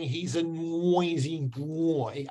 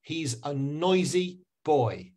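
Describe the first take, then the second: First: Put-on slow Myanmar accent, "noisy boy" as "nwoisy bwoy". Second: Put-on slow, clean "oi" in "noisy boy", no w; correct English pronunciation. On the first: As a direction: imitate a Myanmar learner's w glide in "noisy boy". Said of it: "So instead of saying". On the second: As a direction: model "noisy boy" carefully for learners. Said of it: "I want you to say". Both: Shown as a demonstration.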